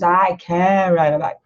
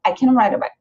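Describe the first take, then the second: First: Slow, careful Brazilian-accented I can ride a bike. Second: Quick I can ride a bike with can swallowed, Brazilian accent dropped; fast native English; native reduced can. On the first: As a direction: say it the way a Brazilian learner would. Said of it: "da maneira que nós brasileiros falamos". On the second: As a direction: run it together fast like a native. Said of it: "Então, é". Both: Shown as a demonstration.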